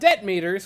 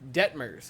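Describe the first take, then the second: First: The name sounds like two words, debt meters. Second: The name is said as one word, Detmers. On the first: The speaker calls it wrong. "Not Debt Meters, which I've said a lot" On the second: The speaker calls it right. "I did it right"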